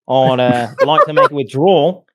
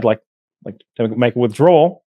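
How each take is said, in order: First: It is said in a put-on Australian accent. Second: It is said in his normal voice.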